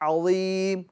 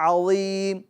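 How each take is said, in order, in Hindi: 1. z की आवाज़ भारी और ज़ोर वाली है। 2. z की आवाज़ भारी और ज़ोर वाली है।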